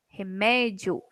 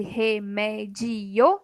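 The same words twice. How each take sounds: First: "Remédio" with dio kept as one syllable; separação certa. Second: "remédio" broken into re-mé-di-o; separação errada. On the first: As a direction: say "Remédio" joined up, stress on mé, dio as a single glide. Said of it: "tomar cuidado pra não separar errado". ("Remédio" com o dio numa sílaba só) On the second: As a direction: say "remédio" slowly in four syllables, splitting di and o. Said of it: "se eu separasse". ("remédio" separado errado, re-mé-di-o) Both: Shown as a demonstration.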